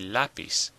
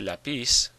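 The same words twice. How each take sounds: First: The stress is on the first syllable. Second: The stress is on the last syllable. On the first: The speaker calls it right. "we say lapis" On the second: The speaker calls it wrong. "the stress should be on the last syllable. But we don't say lapis"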